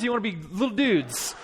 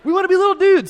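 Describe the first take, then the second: First: Put-on measured, rallying question to kids; coach's challenge. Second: Put-on high, loud chorus of little boys; imitated eager kids. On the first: Dad challenging crying boys to toughen up, coaching challenge. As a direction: put the choice to them like a coach. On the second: Boys answering their coach's challenge, eager imitated shout. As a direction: shout back eagerly in a kid's voice.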